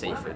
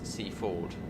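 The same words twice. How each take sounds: First: Seaford is said in its everyday, common pronunciation. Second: Seaford is said in its traditional, older pronunciation. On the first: This is how most people say it now. "over time, it's just Seaford" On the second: This is the place's proper original name. "That's the correct pronunciation of Seaford"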